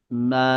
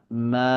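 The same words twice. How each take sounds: Both takes have the same delivery.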